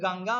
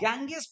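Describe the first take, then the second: First: The word ends with an open a vowel. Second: The word ends with an s sound. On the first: The speaker calls it right. "वो गंगा उसको पढ़ते हैं" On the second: The speaker calls it wrong. "गैंगेस पढ़ेगी उसको"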